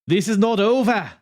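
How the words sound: It is said in a put-on Italian accent.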